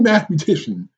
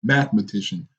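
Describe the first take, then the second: First: Mathematician slurred like math-mu-tation; mispronounced. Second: Mathematician said in full, math-e-ma-ti-cian; corrected word. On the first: Real, not acted. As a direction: say mathematician as math-mutation, syllable dropped. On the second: Shown as a demonstration. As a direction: mathematician with every syllable clear. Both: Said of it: "I said math mutation".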